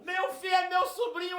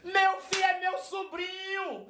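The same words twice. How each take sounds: First: Much higher, shouted repeat; joyful shout. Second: Much higher, slow, drawn-out exclamation; amazed old aunt. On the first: Old aunt announcing her nephew to the bus, shouting with joy. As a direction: cry it out to everyone around. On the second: Old aunt realizing the stranger is her nephew, high and slow amazement. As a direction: savour the discovery, slowly and high. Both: Retold or imitated. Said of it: "ela fez assim".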